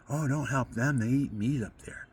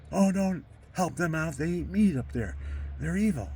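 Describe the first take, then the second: First: Lightly voiced priest brushing it off; a hint of a dismissive cleric; retold priest, gently scornful; mildly scornful Monsignor. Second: Higher, louder, scornful priest voice; mock the cleric's outrage, pitched up; hammed-up priest condemning them; indignant Monsignor. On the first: Monsignor's dismissive warning quoted. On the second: Monsignor's warning repeated, heightened.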